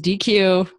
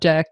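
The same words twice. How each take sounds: First: It is said like the first sounds of digital equality. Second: It is not said like digital equality. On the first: The speaker calls it right. "it's Deque. You can really think of it as digital equality" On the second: The speaker calls it wrong. "It is not Deque"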